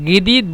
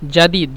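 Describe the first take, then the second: First: The word starts with a hard g sound. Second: The word starts with a soft j sound. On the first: This is how Saudis say it in dialect. "জাদিদকে সৌদিরা গিদিদ বলে" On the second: This is the standard form of the word. "গিদিদ মানে জাদিদ"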